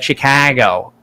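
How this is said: The middle vowel is broad and drawn out. This is the stereotype of the local accent. "they do not pronounce it like Chicago"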